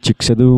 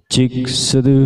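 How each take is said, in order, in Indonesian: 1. Suaranya kering, tanpa efek tambahan. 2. Suaranya ada efek gema tambahan.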